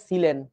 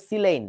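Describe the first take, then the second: First: সিলেন as "si-len", plain e; Bangla textbook pronunciation. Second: সিলেন as "si-leyn", gliding last vowel; English pronunciation. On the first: Teacher citing Bangladeshi books, সিলেন as "si-len". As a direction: say সিলেন with no glide before the n. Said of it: "বাংলাদেশের বইতে লেখে সিলেন". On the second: Teacher giving the proper name, সিলেন as "si-leyn". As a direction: say সিলেন with "ey" before the n. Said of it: "উচ্চারণটা হবে সিলেন". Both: Shown as a demonstration.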